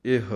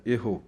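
First: ਇਹ ending on a bare h, eh; no u or o after the h of ਇਹ; correct reading. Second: ਇਹੋ with a vowel after the h, eho; misprinted reading. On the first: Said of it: "ਸੁੱਧ ਪਾਠ ਹੈ". (ਔਂਕੜ ਤੋਂ ਬਿਨਾਂ ਇਹ) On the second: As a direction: say ਇਹੋ in two syllables. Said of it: "ਹਾਹੇ ਔਂਕੜ ਲਾ ਦਿੱਤੀ ਗਈ". (ਹਾਹੇ ਨੂੰ ਔਂਕੜ ਲਾ ਕੇ ਇਹੋ) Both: Shown as a demonstration.

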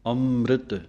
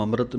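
First: ਅੰਮ੍ਰਿਤ with weight on the nasal first syllable; correct pronunciation. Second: ਅੰਮ੍ਰਿਤ said fast with a weak start; a careless quick ਅੰਮ੍ਰਿਤ; wrong pronunciation. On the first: Teacher showing students the stressed nasal start of ਅੰਮ੍ਰਿਤ. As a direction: press on the opening ਅੰ of ਅੰਮ੍ਰਿਤ. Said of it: "ਐੜੇ ਦੀ ਟਿੱਪੀ ਉੱਤੇ ਜ਼ੋਰ ਦੇ ਕੇ". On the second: Teacher showing students the mistake, a careless ਅੰਮ੍ਰਿਤ. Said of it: "ਨਹੀਂ ਕਹਿ ਦੇਣਾ". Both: Shown as a demonstration.

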